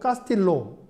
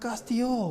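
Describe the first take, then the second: First: The middle consonant is said as an L. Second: The middle consonant is said as a Y. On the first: The speaker calls it wrong. "이거 카스틸로 아니에요" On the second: The speaker calls it right. "엘 발음은 그냥 요 발음으로 합니다"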